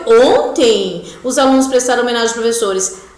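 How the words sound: There is a pause after the first word. The day is what is being emphasized. "aí você precisa colocar a vírgula"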